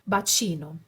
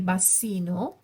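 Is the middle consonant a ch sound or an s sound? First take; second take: ch; s. First: The middle consonant is a ch sound. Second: The middle consonant is an s sound. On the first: The speaker calls it right. "C is always ch" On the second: The speaker calls it wrong. "we don't say bassino"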